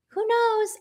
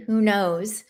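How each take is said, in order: First: Much higher, playful repeat of "Who knows?"; a high, teasing "Who knows?"; sing-song shrug. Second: Said in the usual way. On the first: Real, not acted.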